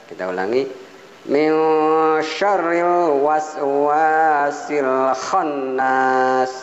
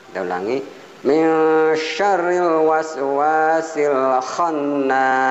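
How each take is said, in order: The two takes are said the same way.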